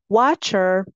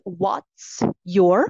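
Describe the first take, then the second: First: The two words run together into one reduced word. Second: The two words are said fully and separately.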